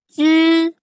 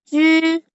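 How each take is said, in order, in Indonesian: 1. Diucapkan dengan nada pertama. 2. Diucapkan dengan nada pertama.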